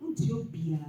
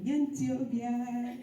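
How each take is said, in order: First: "Ethiopia" said short and plain. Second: "Ethiopia" stretched slowly as "yentiobia"; drawn-out Ethiopia. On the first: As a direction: say "Ethiopia" normally, quick. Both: Shown as a demonstration. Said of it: "and then you know".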